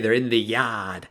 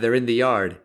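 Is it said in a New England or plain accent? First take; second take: New England; plain. First: It is said with a New England accent. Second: It is said without a New England accent.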